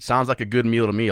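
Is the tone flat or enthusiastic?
flat. It is said flatly, without enthusiasm.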